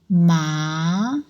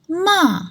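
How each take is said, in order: First: The pitch rises from mid to high. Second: The pitch falls from high to low. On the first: "the second tone is rising tone" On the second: "falls from the highest to the lowest"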